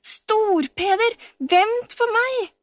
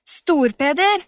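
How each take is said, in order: First: Very high, slow, drawn-out plea; pleading call. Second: A loud call across the distance. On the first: Camilla, running after Storpeder, calls out pleading. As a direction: stretch out the call, begging him to wait. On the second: Camilla calls Storpeder back, loud call. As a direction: shout his name after him. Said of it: "ropte Camilla". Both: A narrator's reading.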